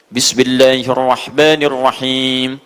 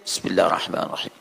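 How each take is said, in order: First: It is recited aloud, audibly. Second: It is recited quietly, under the breath.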